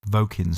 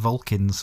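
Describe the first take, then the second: First: The name is said without any L sound. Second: The name is said with an L sound. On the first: The speaker calls it right. "no L" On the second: The speaker calls it wrong. "We keep saying Vulcans for some reason"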